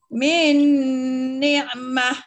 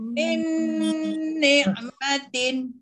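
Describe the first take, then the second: First: The last word ends cut short. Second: The last word keeps its full ending. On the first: The reader stops here. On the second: The reader continues to the next words.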